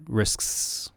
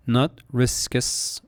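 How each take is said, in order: First: Risks with no vowel between k and s; correct risks. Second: Riskus with an extra us vowel, slow; wrong riskus. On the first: Teacher giving the right risks after the wrong one. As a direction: close risks on a tight ks sound. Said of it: "but risks". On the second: Teacher showing the wrong way to say risks, slow. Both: Shown as a demonstration.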